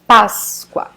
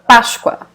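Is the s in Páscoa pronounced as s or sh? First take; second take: s; sh. First: The s is pronounced as a plain s. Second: The s is pronounced like sh.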